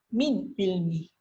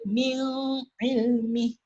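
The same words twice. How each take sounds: First: The n is said clearly without a hum. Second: The n is held with a nasal hum. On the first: The speaker calls it right. "baca saja" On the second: The speaker calls it wrong. "jangan baca"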